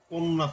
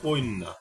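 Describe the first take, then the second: First: Said plainly with no added vowel sound. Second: An extra 'i' vowel is heard after the first syllable. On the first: This is the original form of the word. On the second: This is the changed form after a sound shift.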